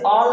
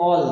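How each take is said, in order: First: "all" with an open AA instead of O; ALL with an AA vowel. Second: "all" with a rounded O vowel, not AA; ALL with an O sound. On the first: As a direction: mispronounce "all" as "aal". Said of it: "इसे all नहीं पढ़ेंगे". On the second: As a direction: say "all" as "awl". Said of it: "but this is a". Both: Shown as a demonstration.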